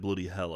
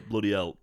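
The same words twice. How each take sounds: First: The h at the start of hell is pronounced. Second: It is in a York accent, h dropped.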